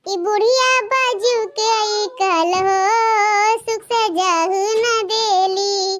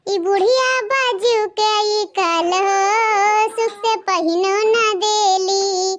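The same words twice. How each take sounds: First: Slow, fully sung teasing verse; sung folk song. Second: Slow, half-spoken folk chant; slow chanted song. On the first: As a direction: sing it out slowly to tease the old woman. Bride's mocking song continues. (sung, सास को चिढ़ाते हुए गाया गीत) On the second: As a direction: chant it slowly, teasing the old woman. Bride's mocking song about mother-in-law. (chanted, सास को चिढ़ाते हुए धीमा गीत) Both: Acted.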